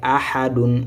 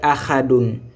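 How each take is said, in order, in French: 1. Le mot est prononcé avec une articulation légère et douce. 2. Le mot est prononcé avec une articulation forte et marquée. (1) "vraiment léger" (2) "Il ne faut pas dire ahadun"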